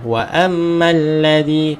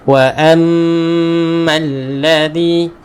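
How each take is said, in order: First: The nasal hum is cut short too quickly. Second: The nasal hum is held for two counts. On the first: The speaker calls it wrong. "Tak cukup harakat" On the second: The speaker calls it right. "pastikan dengung dua harakat"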